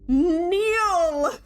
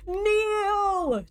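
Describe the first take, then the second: First: Sharp, high, loud royal command; commanding queen shout. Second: Even higher, loud royal command; a furious queen's order, full force; commanding queen shout. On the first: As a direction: bark the order like a cold queen. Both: Acted. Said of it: "the single word that falls from her lips".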